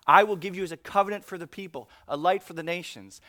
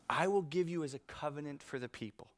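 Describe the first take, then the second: First: Louder, fast, pushed verse; preaching loud. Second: Said in the usual way. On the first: Real, not acted. Pastor rereading the verse to the congregation: fast, loud preaching. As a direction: drive the verse home.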